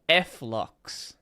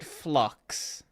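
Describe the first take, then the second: First: The name is spelled out as two syllables. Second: The name is said as one single syllable. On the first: The speaker calls it wrong. "I have never heard anyone say it like that" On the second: The speaker calls it right. "Everyone I've seen calls it Flux"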